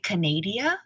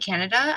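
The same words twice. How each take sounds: First: The word is pronounced in a fanciful way. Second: The word is pronounced in an ordinary way. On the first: "I say Canada because it's so fabulous" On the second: "instead of saying"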